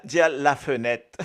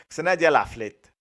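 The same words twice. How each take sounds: First: "la fenêtre" with a laugh, full French form; "la fenêtre" en riant, forme française. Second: "la flette" said lightly stressed, as a Creole form; "flette" demo. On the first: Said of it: "Nous milat". (dire "la fenêtre" en riant) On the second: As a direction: montrer "la flette" comme forme créole. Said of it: "la fenêtre ou la flette". (dire "la flette" en appuyant un peu) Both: Shown as a demonstration.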